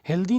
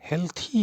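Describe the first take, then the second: First: The sound before the final vowel is 'd'. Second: The sound before the final vowel is 'th'. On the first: The speaker calls it wrong. "हेल्दी नहीं होता है" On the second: The speaker calls it right. "हेल्थी ही होता है"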